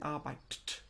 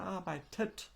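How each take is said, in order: First: It ends with a bare T, no extra syllable. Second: It ends with an added E syllable before T. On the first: The speaker calls it wrong. "A bit hard to pronounce, isn't it?" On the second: The speaker calls it right. "So we add an E also"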